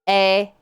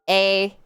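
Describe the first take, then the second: No difference in how they are said.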